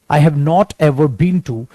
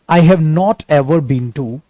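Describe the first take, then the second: No difference in how they are said.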